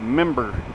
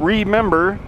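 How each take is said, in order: First: The first syllable is left off the word. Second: The whole word is said with every syllable. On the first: The speaker calls it wrong. "I say member" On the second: The speaker calls it right. "Instead of just saying the whole thing"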